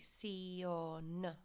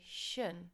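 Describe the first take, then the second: First: Every letter is sounded, like 'see-on'. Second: The ending is said as one English-like 'shun'. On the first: The speaker calls it right. "you need to pronounce every single letter" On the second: The speaker calls it wrong. "students want to pronounce it like the English and say"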